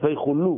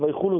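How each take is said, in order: First: The lamed is doubled and drawn out. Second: The lamed is short and not emphasized. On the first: The speaker calls it right. "יש שם דגש בלמד, והמעריך ... הוא נמצא בלמד" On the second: The speaker calls it wrong. "ויחולו זה לא עברית"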